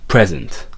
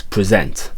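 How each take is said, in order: First: "present" said PREZ-ent, tailing off; stress on first syllable. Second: "present" said pre-ZENT, like the verb; stress on second syllable. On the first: Teacher showing the noun's emphasis, "present" stressed PREZ-ent. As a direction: start "present" strong, let the end fall away. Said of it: "It tails off towards the end". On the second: Teacher confirming the verb's emphasis, "present" stressed pre-ZENT. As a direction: put the weight on the end of "present", pre-ZENT. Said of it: "that gives it that emphasis". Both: Shown as a demonstration.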